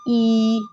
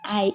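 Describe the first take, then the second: First: The letter is named with an 'ee' sound. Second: The letter is named with an 'eye' sound. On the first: It is the Igbo letter name. The speaker calls it right. "It is called E" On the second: It is the English letter name. The speaker calls it wrong. "don't call it I in Igbo"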